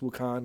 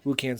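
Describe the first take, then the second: First: The name does not rhyme with 'toucan'. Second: The name rhymes with 'toucan'. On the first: "is how I pronounce it" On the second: "sounds too much like Toucan Sam"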